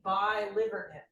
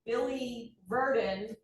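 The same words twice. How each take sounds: First: The middle of the word sounds like 'liver'. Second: The word is said the usual way.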